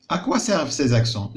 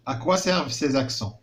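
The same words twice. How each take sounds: First: Slow question. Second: À quoi servent ces accents asked slowly, quoi stressed; slow teacher question. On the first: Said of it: "علاش كيصلحوا لنا هاد لي زاكسون". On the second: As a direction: put the question slowly to pupils. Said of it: "كنلاحظوا قال لك". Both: Shown as a demonstration.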